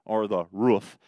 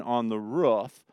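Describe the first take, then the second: First: ROOF with a long oo, as in "food"; long, tight oo in ROOF; long-vowel roof. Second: ROOF with a short vowel, rhyming with hoof as in "ruff"-like "rʊf"; short oo in ROOF, like "foot". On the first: Shown as a demonstration. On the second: Real, not acted. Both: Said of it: "I say roof instead of roof".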